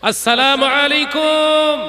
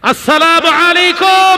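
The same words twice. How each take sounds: First: It is said in a louder voice. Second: It is said in a very loud voice.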